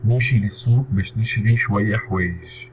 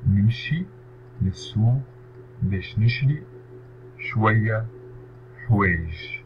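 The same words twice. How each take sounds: First: Said in the usual way. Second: نمشي للسوق باش نشري شوية حوايج split into separate words. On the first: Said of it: "model sentence read whole". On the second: Shown as a demonstration. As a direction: pause after each word of the sentence. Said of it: "teacher splits sentence word by word". (تقطيع الجملة كلمة كلمة)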